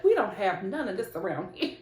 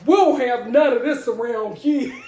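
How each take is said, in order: First: Said in the usual way. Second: Loud, hammed-up New York neighbor; New York accent. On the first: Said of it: "the neighbors are probably like". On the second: Imagined neighbors object to the commotion, mock New York accent. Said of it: "Oh no, it's New York".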